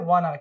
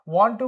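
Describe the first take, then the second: First: The words blend into one reduced word. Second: Both words are said fully and separately. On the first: "एक साथ जब हम बोलेंगे तो sentence में वाना" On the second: "वांट टू को क्या प्रोनाउंस करेंगे?"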